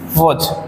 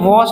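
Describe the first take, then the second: First: It has a short, reduced vowel. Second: It has a full, clear vowel. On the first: "language में हम लोग क्या पढ़ते हैं" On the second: "इसको हम लोग ग्रामर में वॉज पढ़ते हैं"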